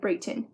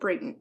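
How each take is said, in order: First: The stress falls on the second syllable. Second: The stress falls on the first syllable. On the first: The speaker calls it wrong. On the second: The speaker calls it right.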